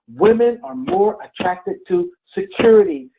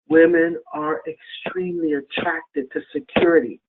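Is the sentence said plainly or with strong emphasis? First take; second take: strong emphasis; plainly. First: It is said with strong, forceful emphasis. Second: It is said plainly, without extra force.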